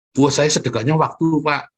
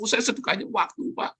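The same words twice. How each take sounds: First: Mock congregant excuse. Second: Higher, softer whiny excuse voice; mock congregant excuse. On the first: Preacher mocking a churchgoer who gives only time, loud whine. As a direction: ham up the stingy churchgoer. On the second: Preacher quoting the stingy churchgoer again, soft and higher. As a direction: repeat the excuse in a smaller mocking voice.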